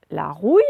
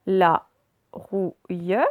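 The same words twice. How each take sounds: First: Said in the usual way. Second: "la rouille" broken into la, rou, ille; syllable by syllable. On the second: Shown as a demonstration. Teacher reading words aloud to pupils, syllable by syllable. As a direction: sound out "la rouille" with clear gaps. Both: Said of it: "on va faire les deux d'un coup".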